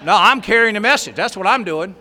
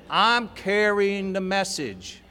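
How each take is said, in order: First: Loud, proud proclamation of duty; proud declaration. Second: Drawn out slowly, each word savoured; slow, savoured repeat. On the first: To himself, swelling with pride over his task: a loud declaration. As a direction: announce it like a badge of honour. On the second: Repeating his duty to himself, slowly and smugly. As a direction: stretch it out, relishing the words. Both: Retold or imitated.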